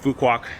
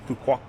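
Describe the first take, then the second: First: The final k sound is clearly said. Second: The final k sound is nearly silent. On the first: This follows the spelling, the English way. "that's how it's spelled. So we are saying like that" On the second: This is closer to the local pronunciation. "You almost don't say the k at the end"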